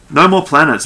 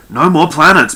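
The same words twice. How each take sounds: First: Loud, higher-pitched irritated command; growled order. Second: Loud, raised, insistent refusal; stubborn. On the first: Barducci cutting off Norell's planet request, growled order. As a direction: shut the subject down hard. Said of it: "Barducci growled". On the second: Barducci repeating his ban on planet names, stubbornly. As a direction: dig in and refuse to budge. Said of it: "Barducci repeated stubbornly". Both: A narrator's reading.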